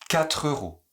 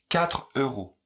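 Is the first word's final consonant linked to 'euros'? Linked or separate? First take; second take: linked; separate. First: The final consonant runs straight into the next word. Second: The two words are said separately, without linking. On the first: "avec la liaison et l'enchaînement" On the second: "les gens ne font ni la liaison ni l'enchaînement"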